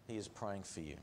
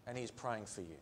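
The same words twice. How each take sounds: First: Softer, lower murmured assurance; quiet. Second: Quiet. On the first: Preacher murmuring the promise to the congregation, hushed. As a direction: let the last words fall soft. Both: Acted.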